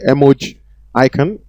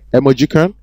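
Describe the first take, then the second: First: It is said as two words, emoji plus icon. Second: It is blended into one word, emojicon. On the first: "You can say emoji icon" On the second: "or you can say emojicon"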